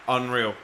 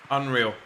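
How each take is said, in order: Both takes have the same delivery.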